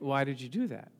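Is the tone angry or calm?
calm. It is said in a calm, innocent tone.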